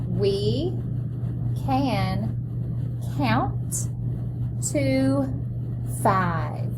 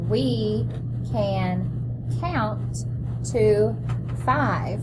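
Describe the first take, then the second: First: Each word set apart with pauses; word-by-word model reading. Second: Reading along word by word; choral read-along. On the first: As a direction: read one word at a time for the class. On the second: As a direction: read it together with the children. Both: Shown as a demonstration. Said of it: "Let's read that together".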